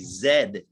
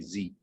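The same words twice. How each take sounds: First: The letter is said the British way. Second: The letter is said the American way. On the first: "British, they also say Z" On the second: "we say Z"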